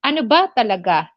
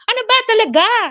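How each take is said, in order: First: It is said in a curious, neutral tone. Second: It is said in an angry tone.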